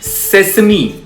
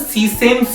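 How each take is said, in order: First: It has three syllables and ends in 'ee'. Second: It has two syllables and ends in 'sem'. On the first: The speaker calls it right. "पर इसकी सही pronunciation होती है सेसमी" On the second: The speaker calls it wrong. "लोग इसको ना सीसेम seed बोलते हैं"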